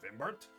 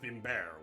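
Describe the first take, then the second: First: The name is pronounced in an English way. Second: The name is pronounced in a French way. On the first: "Normally, I pronounce my name as" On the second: "more closer to the French pronunciation"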